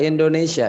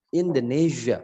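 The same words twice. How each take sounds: First: Said in the usual way. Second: "Indonesia" as in-duh-NEE-zhuh; blown zh. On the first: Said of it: "bahasa Inggrisnya gini". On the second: Shown as a demonstration. Teacher showing the English version, "Indonesia" with blown zh. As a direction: buzz the s of "Indonesia" into zh.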